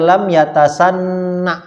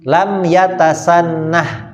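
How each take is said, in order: First: The word ends on an open vowel. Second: The word ends with a breathy h sound. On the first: The speaker calls it wrong. "Baca itu gimana? Kita waqaf" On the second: The speaker calls it right. "Maka ditambahkan huruf H. Ah, lebih enak berhenti nih"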